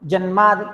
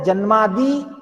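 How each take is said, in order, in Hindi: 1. अंतिम इ स्वर ह्रस्व है। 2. अंतिम इ स्वर दीर्घ है। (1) "नपुंसकलिंग एक वचन का प्रयोग करेंगे तो ह्रस्व होगा" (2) "दीर्घ ई होगा"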